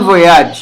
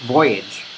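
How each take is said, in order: First: The word has a French pronunciation. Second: The word has an English pronunciation. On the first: "bon voyage is French, hindi siya English. So, g- ganun talaga yung pronunciation nun" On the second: "in the English pronunciation, it's voyage"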